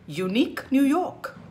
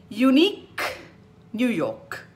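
First: UNIQUE NEW YORK in one run, higher pitched; faster. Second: UNIQUE with a loud released K, then a pause; tongue twister. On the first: Teacher speeding up the twister, faster. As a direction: join UNIQUE to NEW YORK without a pause. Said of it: "you go faster and faster". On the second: Teacher starting a twister for fun, carefully separated. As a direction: separate UNIQUE from NEW YORK. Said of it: "do some tongue twisters". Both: Shown as a demonstration.

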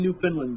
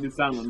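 First: Newfoundland with "Finland" in place of "foundland"; mispronounced Newfoundland. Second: Said in the usual way. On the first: Real, not acted. Owning a slip to the guys, Newfoundland said as "New-Finland". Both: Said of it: "I misspoke".

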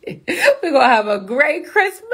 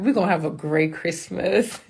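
First: Laughing, drawn-out, higher delivery; laugh, then stretch it out almost into song; gleeful high Christmas cheer; giddy singsong. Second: Said in the usual way. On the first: Real, not acted. Repeats it laughing, breaking into song.

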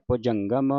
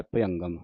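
First: ਭੁਜੰਗਮ as "bhu-jan-gam", slowly; clear j sound. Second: ਭੁਜੰਗਮ without j, as "bhu-yangam"; vowel variant. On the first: Teacher models this verse's reading, ਭੁਜੰਗਮ with firm j. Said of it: "ਇੱਥੇ ਜੱਜੇ ਦੇ ਨਾਲ ਹੀ ਉਚਾਰਨ". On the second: Teacher cites another spelling, ਭੁਜੰਗਮ said as "bhu-angam". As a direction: glide through ਭੁਜੰਗਮ with no j sound. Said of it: "ਐੜੇ ਦੇ ਨਾਲ ਉਚਾਰਨ ਆਉਂਦਾ ਹੈ". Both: Shown as a demonstration.

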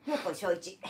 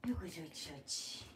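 First: Said in the usual way. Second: よっこいしょいち trailing off into a soft, breathy whisper; fading quiet repeat. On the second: Shown as a demonstration. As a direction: let よっこいしょいち fade out to almost nothing. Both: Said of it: "よっこいしょいち流行らんで".

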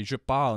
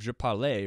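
First: "parle" as one syllable, silent final e; conjugated French verb. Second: "parlais" as two syllables, ending in "ay"; unconjugated French verb. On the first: Teacher showing students the right French form, conjugated "parle". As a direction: say "parle" ending on the l. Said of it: "So I say "je parle" instead of". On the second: Teacher showing students the form to avoid, unconjugated "parlais". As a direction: sound out "parlais" as par-LAY. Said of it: "instead of". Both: Shown as a demonstration.

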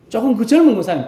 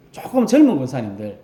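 First: 조금 said higher and louder, leaned on hard; stress on 조금. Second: Said in the usual way. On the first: Shown as a demonstration. Pastor correcting the congregation, stressing 조금. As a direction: push the word 조금 to stress only slightly younger. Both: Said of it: "조금이라 그랬습니다".

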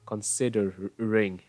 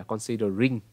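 First: Considering slowly, with a lax "eh"-like i in "ring"; short lax final vowel. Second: Considering with a tight "ee" in "ring"; wrong final vowel. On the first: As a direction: draw out Considering, relaxing the last vowel toward "reng". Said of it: "âm y là gì?". (Considering, đọc chậm, đuôi gần như "rêng") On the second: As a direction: end considering on a full Vietnamese "rinh"-like i. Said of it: "không phải là considering". (considering, đọc sai đuôi "ring" thành âm i rõ) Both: Shown as a demonstration.

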